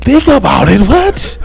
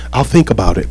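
First: Incredulous echo. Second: Said in the usual way. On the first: Retold or imitated. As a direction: pitch leaping up on a disbelieving question. Retells his disbelief at being put off.

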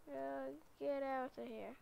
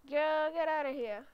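First: Said in the usual way. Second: Loud, pushy get outta here; loud shoo. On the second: Pretend. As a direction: chase her out loudly. Ordering girl out of car.

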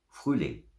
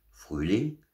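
First: "Frühling" called with a falling end; announcing. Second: "Frühling" high and rising as a question; puzzled question. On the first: Mama Bär announces spring. („Frühling“ als Ausruf, am Ende fallend) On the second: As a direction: echo "Frühling" in disbelief. Bear echoes the news in doubt. („Frühling“ erstaunt fragend, am Ende steigend) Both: A narrator's reading.

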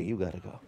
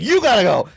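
First: Much softer and lower, gently spoken; soft Wally version. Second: Much louder and higher, punching the words out; the way the pastor would shout it, not Wally; loud pushy version. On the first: Polite elder Wally urging the pastor, soft and low. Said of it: "No, this is Wally". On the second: Pastor mocks his own pushy style, loud and high. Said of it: "I'd be like". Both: Retold or imitated.

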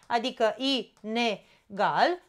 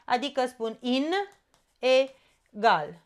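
First: Inegal said slowly as i-ne-gal; phonetic split. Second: Inegal split as in, pause, egal; morphological split. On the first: Teacher showing phonetic split of inegal. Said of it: "după principiul fonetic". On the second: Teacher showing split by structure, in-egal. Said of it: "despart în funcție de structură". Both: Shown as a demonstration.

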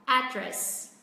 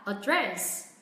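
First: "address" as AD-dress, first syllable strong, second falling; stress on first syllable. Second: "address" as uh-DRESS, weight on the second syllable; stress on second syllable. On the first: Teacher recaps both accepted ways, first-syllable stress on "address". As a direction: hit the "ad" of "address", drop the rest. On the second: Teacher recaps both accepted ways, second-syllable stress on "address". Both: Shown as a demonstration. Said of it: "Cả hai cách đều đúng".

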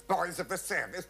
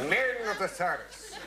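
First: Put-on "Boys of the service" with the s sounds hissed and stretched; "Boys of the service" mocked for its s sounds; hissing sibilants. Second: "Men" punched high and firm; "Men of the service" with a weighty "Men"; stress on men. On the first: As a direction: lean on every s in "service". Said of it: "And all those sibilants". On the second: Retold or imitated. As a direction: hit "Men" hard and manly. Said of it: "No, let's make it men".

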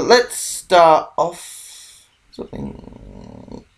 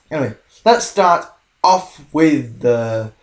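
First: Slow drawn-out voice. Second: Said in the usual way. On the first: Shown as a demonstration.

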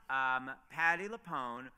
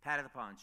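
First: "Patti LuPone" drawn out slowly and louder, like a headline; slow announcement. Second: Said in the usual way. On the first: Shown as a demonstration.

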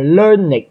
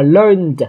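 First: Learned as two syllables, LUR-nid; ịch ending. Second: Learned as one syllable ending in a voiced d; no extra syllable in learned, just a d. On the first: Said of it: "âm ịch". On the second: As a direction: say learned as "lurnd". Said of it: "Âm N là âm rung nên đọc là d". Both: Shown as a demonstration.

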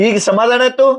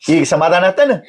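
First: Higher-pitched, insistent repeat of the question; pressing reproach. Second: Said in the usual way. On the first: Acted. Husband asks if satisfied after sister's tears, reproachful.

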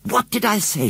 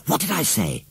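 First: Triumphant shout at John. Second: Put-on higher, gloating child; first take, still held back; triumphant. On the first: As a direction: crow it at her brother. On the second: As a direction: crow over her brother. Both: A narrator's reading. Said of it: "she shouted".

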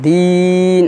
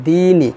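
First: দিন with final ন closed like jazm; stopped ending. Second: দিনই with the ই sounded, flowing on; joined ending. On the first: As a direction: end দিন sharply on ন. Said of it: "এইভাবে উচ্চারণ করতে হবে". (জজমের মতো দিন) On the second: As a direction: carry দিনই into the next word. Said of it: "না ধরি তাহলে হবে দিনই". (না থেমে দিনই) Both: Shown as a demonstration.

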